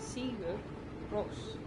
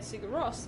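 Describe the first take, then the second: First: The name is said with an Icelandic pronunciation. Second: The name is said with an English pronunciation. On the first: The speaker calls it right. "I think it's meant to be said that way" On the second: The speaker calls it wrong. "the way most English speakers say the band's name is not correct"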